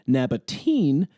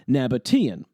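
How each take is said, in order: First: The ending is one syllable, like teen. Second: The ending is two syllables, like tee-an. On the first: The speaker calls it wrong. "as you might expect given the usual pronunciation of the E A vowel combination" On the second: The speaker calls it right. "the suffix "ian""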